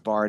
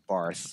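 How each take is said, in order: First: The name ends with a plain t sound. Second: The name ends with a th sound. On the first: The speaker calls it right. "once you find out it's Bart" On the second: The speaker calls it wrong. "a number of people who pronounce it as Barth"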